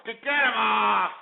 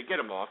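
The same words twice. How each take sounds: First: Shouted order. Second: Said in the usual way. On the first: Real, not acted. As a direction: bark it at the producer. Host orders caller dropped.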